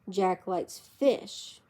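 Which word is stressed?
fish. The stress falls on the word fish. He does not like another kind of food. "He doesn't like meat"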